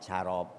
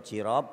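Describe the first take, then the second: First: The first vowel is a. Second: The first vowel is i. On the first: The speaker calls it wrong. "boleh juga dengan fathahnya huruf jim" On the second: The speaker calls it right. "Dengan kasronya huruf jim"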